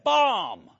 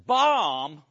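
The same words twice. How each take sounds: First: Loud, flat call of "Bomb." from a guard; security guard's alarm. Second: "Bomb?" laughed out with a rising, disbelieving tune; incredulous laugh. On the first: Retold or imitated. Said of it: "And security said". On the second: Real, not acted. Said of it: "you know how I'm feeling".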